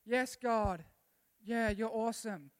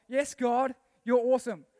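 First: Half-hearted, level-voiced praise; unenthusiastic praise. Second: Loud, wholehearted praise; enthusiastic praise. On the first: Preacher shows a weak say so, unenthusiastic. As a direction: say it as if you barely mean it. First of two contrasted say-sos. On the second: Preacher shows a keen say so, enthusiastic. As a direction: punch it out like you mean it. Second of two contrasted say-sos. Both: Shown as a demonstration.

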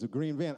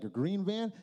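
First: "A green van." lower and flat, falling; flat confirmation. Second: "A green van?" rising in disbelief; echoing the friend in confusion; puzzled question. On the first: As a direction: state "A green van." as grim fact. Friend flatly confirms. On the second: Stunned question back to friend. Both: Retold or imitated.

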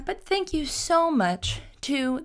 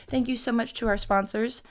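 First: Slow, high sponsor-read voice; hamming up a sponsor thank-you; mock ad read. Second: Said in the usual way. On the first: Thanking podcast sponsors in a slow, high mock ad-read voice. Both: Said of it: "the shortest ad read I've ever done".

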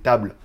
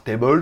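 First: "table" said as English "tay-bul" with an American accent. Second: Said in the usual way. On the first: Shown as a demonstration. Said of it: "c'est table, avec l'accent américain". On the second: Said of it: "c'est pour ceux qui savent pas".

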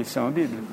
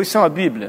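First: Softer, lower plain confirmation, falling at the end; calm statement. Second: Rising question on Bíblia, a curious stranger asking; surprised question. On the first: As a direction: answer "Isso é uma Bíblia." as a quiet, settled fact. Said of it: "Eu falei". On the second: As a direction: ask "Isso é uma Bíblia?" as a light, wondering question. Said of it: "olhou pra mim assim e falou". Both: Retold or imitated.

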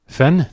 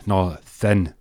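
First: THIN as a high rising question; puzzled echo. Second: THIN restated with a falling tone; corrective repeat. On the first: Checking a word just heard, puzzled question. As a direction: query THIN, pitch jumping up. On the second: Answering a query about the word, firm correction. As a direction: put THIN down firmly as a statement. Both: Acted.

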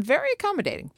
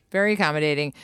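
First: High-pitched aside. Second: Said in the usual way. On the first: Acted. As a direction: pitch leaping way up. Same aside said twice, pitched up.

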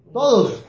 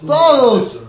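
First: Said in the usual way. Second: Todos said higher and louder, punched; emphatic. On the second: Real, not acted. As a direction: hit Todos hard and high. Answering how many defects.

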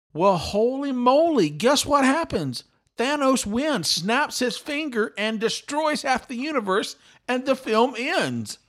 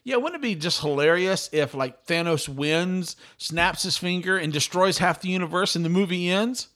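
First: High-pitched, emphatic astonished reveal; incredulous excitement. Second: Said in the usual way. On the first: Real, not acted. Podcaster revealing his joke about the ending came true, incredulous excitement. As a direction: punch out each beat in higher-pitched disbelief.

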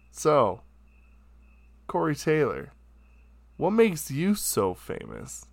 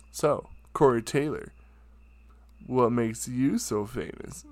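First: Cocky question. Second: Showboaty attitude. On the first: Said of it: "Said it just like that". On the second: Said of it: "most ignorant, so showboaty, douchey attitude". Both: Retold or imitated.

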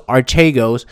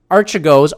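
First: Archegos said ar-CHAY-gohz; second pronunciation. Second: Archegos said AR-chuh-gohz; trying a pronunciation. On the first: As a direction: say Archegos with a long "chay" in the middle. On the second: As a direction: say Archegos with a quick "chuh" in the middle. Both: Shown as a demonstration. Tries out the name two ways.

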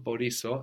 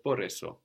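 First: Μπορήσω with an ee in the middle, bo-REE-so; expected wrong form. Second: Μπορέσω with an eh in the middle, bo-REH-so; correct irregular form. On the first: Teacher showing the form we might expect, μπορήσω with ee. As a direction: say μπορήσω with stressed ee. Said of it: "It's not μπορήσω, as we might expect". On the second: Teacher giving the weird real form, μπορέσω with eh. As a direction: say μπορέσω with stressed eh. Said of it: "but μπορέσω". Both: Shown as a demonstration.

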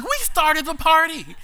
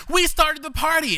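First: High, slow delighted shout; gleeful echo. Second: High laughing cry of triumph. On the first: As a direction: echo him back in giddy glee. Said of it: "And I'm like". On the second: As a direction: shout it gleefully through laughter. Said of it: "he's laughing hysterically because he's like". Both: Retold or imitated.

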